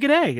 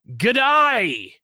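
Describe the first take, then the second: First: The word has a mild, toned-down Australian accent. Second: The word has a strong, exaggerated Australian accent. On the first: "hers is really like it's dialed back" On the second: "Every Australian I've ever seen on TV is like"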